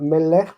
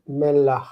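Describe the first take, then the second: First: Melech with e in both syllables; wrong e-vowel form. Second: Melach with an open a in the second syllable; a-vowel before chet. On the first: Teacher showing students the form to avoid, melech with e. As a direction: say melech with a second e before the guttural. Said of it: "that influences. So it's not melech". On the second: Teacher correcting to the word for salt, melach with a. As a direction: finish melach on a clear a and guttural. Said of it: "ends in chet, that influences". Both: Shown as a demonstration.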